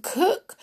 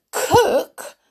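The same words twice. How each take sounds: First: High, lilting last item; tempting offer. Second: High, loud, delighted echo; happy shout. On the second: The dwarves hear she will cook, happy shout. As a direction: shout it back with glee. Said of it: "the dwarves shouted happily". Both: Acted.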